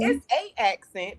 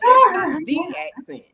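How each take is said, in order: First: "a" picked out before "accent"; stress on A. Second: "the" said "thee", high and loud; stress on THE. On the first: Teasing the guide about her accent, stress on "a". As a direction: lean on the article "a" in "a accent". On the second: Teasing the guide about her accent, stress on "the". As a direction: punch "the" as a long "thee" before "accent". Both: Real, not acted.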